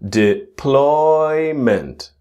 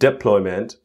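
First: The stress falls on the second syllable. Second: The stress falls on the first syllable. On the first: The speaker calls it right. "you can see one word is in big letters" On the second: The speaker calls it wrong. "Not deployment"

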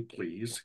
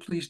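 First: The word sounds mocking and sarcastic. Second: The word sounds sincere and polite. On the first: The request is not meant genuinely. "It could be sarcastically" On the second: The request is genuine. "or it could be like, hey, could you please do this for me?"

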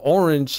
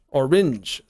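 First: The word is said with its usual pronunciation. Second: The word ends like it rhymes with syringe. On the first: "instead of orange" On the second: "if you do orange, then you could rhyme it with like syringe"

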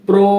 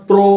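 No difference in how they are said.

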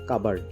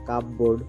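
First: The second syllable sounds like 'berd'. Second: The second syllable sounds like 'board'. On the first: The speaker calls it right. "এটার উচ্চারণ হবে" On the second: The speaker calls it wrong. "যেমন আমরা বলে থাকি কাপবোর্ড বলি"

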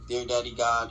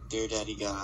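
First: It is said plainly and sincerely. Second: It is said in a drawn-out, suggestive voice.

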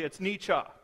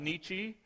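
First: The name gets its German pronunciation. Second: The name gets a common anglicized pronunciation. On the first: The speaker calls it right. "if you are reading the German properly" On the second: The speaker calls it wrong. "the German mispronounced, as most people call him"

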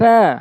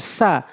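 First: The tongue tip touches the front teeth, th-like. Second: The consonant is a plain hissing s. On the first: The speaker calls it right. "বলতে হবে সা, জিব্বার আগা সামনে দুইটার আগা" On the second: The speaker calls it wrong. "অধিকাংশ লোক ভুল করে থাকে, বলে থাকে সা, ভুল এটি উচ্চারণ"

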